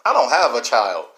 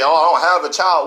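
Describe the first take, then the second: First: Said in the usual way. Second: A touch of a dismissive quoted excuse; mock excuse. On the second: Speaker quotes listeners' excuse, mildly dismissive. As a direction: shrug it off lightly. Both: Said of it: "So you can say".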